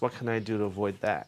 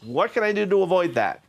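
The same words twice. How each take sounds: First: It is spoken at a quieter volume. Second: It is spoken at a louder volume.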